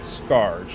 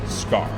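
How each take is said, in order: First: The name is said with a final 'j' sound, like 'scourge'. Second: The name is said as one short syllable, like 'scar'. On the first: This is the pronunciation used since childhood. "Little Boy Darkness Concept pronounced that Scourge" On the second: This is the pronunciation believed to be correct. "I believe now as an adult looking at that, that that is pronounced Scar"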